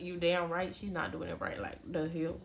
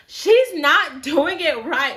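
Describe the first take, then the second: First: Much softer, lower aside to a friend; hushed agreement. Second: Slow, higher and louder complaint; blatant complaint. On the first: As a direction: agree quietly so the stylist won't hear. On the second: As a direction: say it out loud for the whole salon to hear. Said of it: "my friend was just blatantly saying". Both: Retold or imitated.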